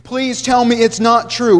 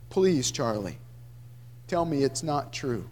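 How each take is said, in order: First: Pleading. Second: Much lower and softer, tearful; weeping plea. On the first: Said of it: "I pleaded in disbelief". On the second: Father weeping the plea to his brother Charlie. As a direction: weep the words out, low and soft. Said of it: "I wept the words from my mouth". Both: A narrator's reading.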